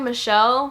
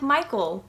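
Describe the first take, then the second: First: The name is said like Michelle. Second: The name is said like Michael. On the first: This is the commonly heard pronunciation. The speaker calls it wrong. "which is what you guys are probably used to hearing it pronounced as" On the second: This is the supposedly proper pronunciation. The speaker calls it right. "but apparently it's pronounced like Michael"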